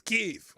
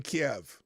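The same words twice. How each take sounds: First: Kyiv said as one syllable, KEEV; Ukrainian pronunciation. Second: Kiev said as KEE-ev; two-syllable pronunciation. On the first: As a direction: say Kyiv like "keev", firmly corrected. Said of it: "That's how the Ukrainians pronounce that". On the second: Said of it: "you got me saying Kiev". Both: Shown as a demonstration.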